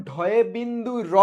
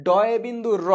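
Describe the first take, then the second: First: ঢয় বিন্দু র with breathy aspirated dh at the start; aspirated name. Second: ডয় বিন্দু র with a plain hard d, no breath after it; unaspirated d. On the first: Teacher to online class, ঢয় বিন্দু র with aspirated dh. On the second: Teacher to online class, ডয় বিন্দু র with plain d. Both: Shown as a demonstration. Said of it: "এটার উচ্চারণ কিন্তু ডয়ে বিন্দু র".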